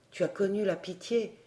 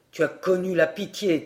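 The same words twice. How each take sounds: First: Soft, gentle tu as connu la pitié; kind spirit. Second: Scornful king. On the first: Spirit of life consoling the weeping wind, soft and kind. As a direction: offer connu softly, rising with kindness. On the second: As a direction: spit out la pitié with contempt. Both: A narrator's reading.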